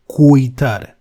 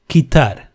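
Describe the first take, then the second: First: The u after the q is pronounced. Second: The u after the q is silent. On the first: The speaker calls it wrong. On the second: The speaker calls it right.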